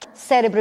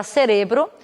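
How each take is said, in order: First: Cérebro stressed on CÉ; Portuguese pronunciation. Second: Cerebro stressed on RE; Spanish pronunciation. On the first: Teacher giving the Portuguese word, first-syllable stress. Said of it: "em português". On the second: Teacher giving the Spanish word, stress on RE. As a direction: hit RE in cerebro. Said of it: "em espanhol será". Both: Shown as a demonstration.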